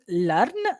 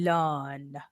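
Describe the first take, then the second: First: The vowel is short, not stretched. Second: The vowel is long and stretched out. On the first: The speaker calls it wrong. "instead of saying learn" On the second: The speaker calls it right. "stretching the first half"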